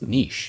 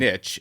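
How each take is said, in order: First: The word is said the way it's said in Europe. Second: The word is said the speaker's native American way. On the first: The speaker calls it right. "the way it's pronounced in Europe. It's niche" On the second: The speaker calls it wrong. "I grew up saying niche"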